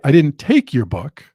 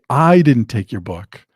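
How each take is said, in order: First: The stress falls on the word take. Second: The stress falls on the word I. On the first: It was borrowed, not taken. "it could mean I borrowed it, but I didn't take it" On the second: Someone else took it. "it means that I didn't take it, but somebody else did"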